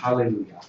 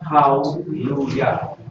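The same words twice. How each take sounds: First: It is said without the short schwa syllable. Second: It is said with the short schwa syllable. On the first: The speaker calls it wrong. "It's not hallelujah" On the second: The speaker calls it right. "Because it has the schwa"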